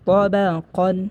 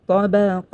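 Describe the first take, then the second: First: The word ends with an n sound. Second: The word ends on a vowel. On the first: The reading continues without stopping. "যদি অক্ষ না করা হয় তাহলে পড়তে হবে" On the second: The reading stops at this word. "যদি অক্ষ করা হয়"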